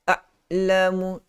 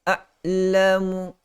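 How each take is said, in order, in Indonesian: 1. Ain ditahan dengan rapat. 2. Ain ditahan dengan rapat.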